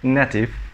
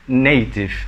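First: The first vowel is not an 'ay' sound. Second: The first vowel is an 'ay' sound. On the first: The speaker calls it wrong. "Instead of saying native" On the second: The speaker calls it right. "say native"

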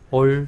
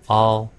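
First: The vowel is a rounded 'oh' sound. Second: The vowel is an open 'aw' sound. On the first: The speaker calls it wrong. "A, L, L을 잘못된 발음으로 하면 올" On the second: The speaker calls it right. "O 발음도 제대로 내면 all"

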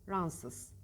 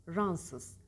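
Both takes have the same delivery.

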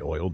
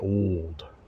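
First: It is said in the speaker's plain accent. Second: It is said in an American Mid-South accent. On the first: "they don't say oiled" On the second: "they say oiled"

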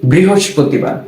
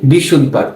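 First: The word is said in full as brihospotibar. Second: The word is shortened to sound like bishuddhobar. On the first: This is the standard form of the name. The speaker calls it right. "এর শুদ্ধ উচ্চারণটা হচ্ছে বা প্রকৃত নাম হচ্ছে বৃহস্পতিবার।" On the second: This is a regional or uninformed way of saying it. The speaker calls it wrong. "অনেকে এটাকে বলে ফেলে বিশুদ্ধবার।"

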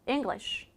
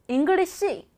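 First: The final 'sh' is said only lightly. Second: The word ends with an extra full 'shi' syllable. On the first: The speaker calls it right. "이렇게 맨 마지막 자음을 살짝만 발음해요" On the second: The speaker calls it wrong. "잉글리시란 발음은 존재하지 않는 이상한 발음"

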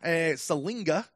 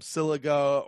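First: The name has an N sound before the G. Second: The name has no N sound before the G. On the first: The speaker calls it right. "Salinga is how you pronounce that" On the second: The speaker calls it wrong. "he just kept calling him Siliga"

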